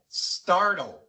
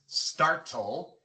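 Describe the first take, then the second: First: The T is softened, not an ordinary T. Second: The T is a crisp, ordinary T sound. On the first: The speaker calls it right. "sino startle" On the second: The speaker calls it wrong. "No es startle"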